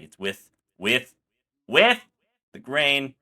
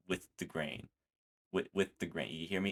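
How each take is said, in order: First: Slow, with the last "with" pushed much higher and louder; emphatic slow repeat. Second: Gentle instruction. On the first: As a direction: hammer home "with the grain". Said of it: "giving out tips". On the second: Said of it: "Big Z's giving out tips where he's like". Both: Retold or imitated.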